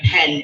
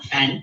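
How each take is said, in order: First: The name begins with a P sound. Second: The name begins with an F sound. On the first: The speaker calls it right. "my name is [name]" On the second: The speaker calls it wrong. "and not Fen"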